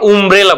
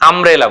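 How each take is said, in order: First: The word begins with a rounded 'oo' vowel. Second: The word begins with an open 'uh' vowel. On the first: The speaker calls it wrong. "আমরা উমব্রেলা বলি না" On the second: The speaker calls it right. "আমরা কি বলি আমব্রেলা বলি"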